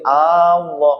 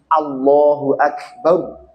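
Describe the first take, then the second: First: The first vowel is drawn out long. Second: The first vowel is short. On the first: It becomes a question whether God is great. The speaker calls it wrong. "A-nya nggak boleh panjang... Nggak boleh Allah" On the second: God is the greatest. The speaker calls it right. "Harus Allahu Akbar"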